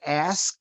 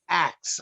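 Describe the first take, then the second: First: The word ends with an 's' then 'k' sound. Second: The word ends with a 'k' then 's' sound. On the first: "Instead of ask" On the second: "it would be axe"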